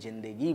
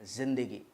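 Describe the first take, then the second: First: The word begins with a j sound. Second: The word begins with a z sound. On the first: The speaker calls it wrong. "बहुत सारे लोग उसे ज़िंदगी बोलते हैं" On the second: The speaker calls it right. "सही शब्द क्या है?"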